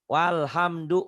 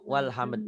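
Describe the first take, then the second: First: The final short vowel is pronounced. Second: The final vowel is dropped at the stop. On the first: The reading continues without stopping. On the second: The reader stops at this word.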